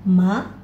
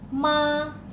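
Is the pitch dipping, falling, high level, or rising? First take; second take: rising; high level. First: The pitch rises from middle to high. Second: The pitch stays high and level. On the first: "dua ini naik" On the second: "Nada pertama dibaca tinggi"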